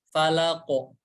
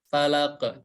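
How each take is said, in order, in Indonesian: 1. Q di akhir bergema penuh ke arah o. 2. Q di akhir berbunyi tipis dengan sedikit gema. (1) "pantulannya lebih ke huruf o" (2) "kurang tebal"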